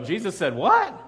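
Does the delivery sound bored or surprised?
surprised. It is said with lively, surprised energy. The speaker calls it right.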